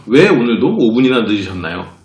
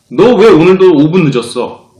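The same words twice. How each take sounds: First: Polite question. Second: Loud, slow accusing question; blunt demand. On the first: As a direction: ask it politely, gently. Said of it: "공손하게 물어봐도". (공손하게 "왜"를 부드럽게) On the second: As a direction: press him with 왜 hard. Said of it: "공손하게 물어봐도 똑같아요". (따지듯 "왜"를 세게) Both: Shown as a demonstration.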